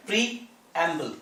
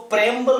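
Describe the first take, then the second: First: प्रीएम्बल said slowly as pree-em-bal, three syllables; careful correct प्रीएम्बल; correct pronunciation. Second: प्रेम्बल said as pre-mbal, two syllables, no ee-a; wrong two-syllable प्रेम्बल; wrong pronunciation. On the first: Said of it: "ये सही word है प्रीएम्बल". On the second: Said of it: "कोई इस word को प्रेम्बल बोलता है". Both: Shown as a demonstration.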